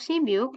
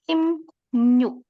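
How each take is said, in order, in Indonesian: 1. Bagian tengahnya adalah bunyi b sebelum vokal. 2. Bagian tengahnya adalah m diikuti ny.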